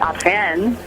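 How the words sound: The name is said with a French pronunciation.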